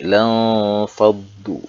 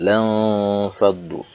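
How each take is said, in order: First: The n sound is muffled and faint. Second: The n sound is muffled and faint.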